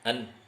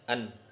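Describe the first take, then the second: The two takes are said the same way.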